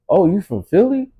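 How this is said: It is said in a doubtful, questioning tone.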